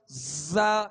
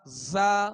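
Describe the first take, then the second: First: The z is said with a forced, overdone hiss. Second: The z is said with a moderate whistling hiss. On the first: The speaker calls it wrong. "ज्यादा तकल्लुफ भी ना हो कि एकदम जा इस तरह भी नहीं" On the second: The speaker calls it right. "सीटी की आवाज में"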